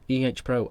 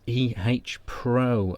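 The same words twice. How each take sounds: First: The letter H has no h sound. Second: The letter H starts with an h sound. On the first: The speaker calls it right. "You got it right the second time" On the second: The speaker calls it wrong. "You said E H Pro, and then you changed it"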